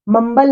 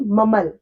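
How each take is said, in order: First: "मम्बल" with the b sounded; wrong pronunciation. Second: "ममल" with a silent b; "ममल" with no b at all; correct pronunciation. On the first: Teacher showing students the wrong sound, b pronounced. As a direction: says "मम्बल" with a b as the mistake. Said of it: "मम्बल नहीं". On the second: Teacher showing students the silent b. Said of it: "इसमें बी silent है". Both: Shown as a demonstration.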